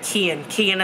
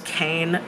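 First: The name is said with two syllables. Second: The name is said with one syllable. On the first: The speaker calls it right. "Kian is how you say it" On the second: The speaker calls it wrong. "I read it as Kane"

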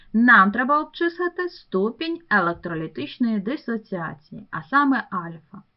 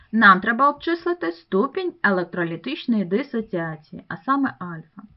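No difference in how they are said.

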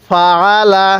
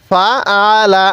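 Both takes have the same delivery.

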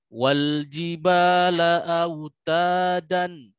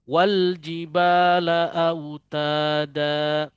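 First: The last word ends with an n sound. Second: The last word ends on a lengthened a vowel. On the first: The speaker calls it wrong. "bukan wal jibala autadan" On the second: The speaker calls it right. "harus diambil dengan cara baca mad iwad tadi, dua harokat"

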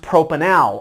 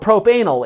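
First: The stress falls on the usual syllable. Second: The stress falls on a different syllable. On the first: The speaker calls it right. "So that is pronounced propanal" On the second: The speaker calls it wrong. "if you're emphasizing the wrong syllable"

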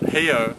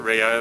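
First: The word begins with an H sound. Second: The word begins with an R sound. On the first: "an R is pronounced like an H sound" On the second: "locals don't actually call it Rio"

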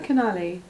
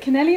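First: The second vowel sounds like 'a'. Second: The second vowel sounds like 'e'. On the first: The speaker calls it right. "It's Canali. There's no E in" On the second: The speaker calls it wrong. "I'm pronouncing it how it reads"

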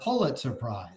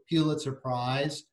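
First: The first syllable does not sound like 'pew'. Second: The first syllable sounds like 'pew'.

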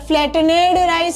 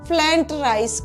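First: Flattened is said in full with every syllable. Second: Flattened is said shortened, like flent. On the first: The speaker calls it wrong. "એવું નથી કહેવાતું" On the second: The speaker calls it right. "ફ્લેન્ટ rice કહેવાય છે"

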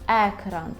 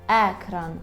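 Both takes have the same delivery.

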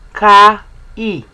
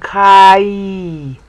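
First: The two vowels are said as separate sounds. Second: The two vowels merge into one gliding sound.

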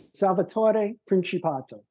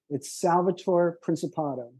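First: The name is said with an Italian accent. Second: The name is said with an American accent. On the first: "I'll say in Italian" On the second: "In plain American English"

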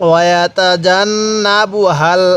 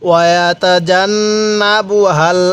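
Both takes have the same delivery.

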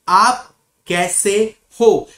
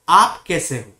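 First: The phrase is broken up with pauses between parts. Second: The phrase is said smoothly together without pauses. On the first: "I'm breaking whole word" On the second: "you have to say it together"

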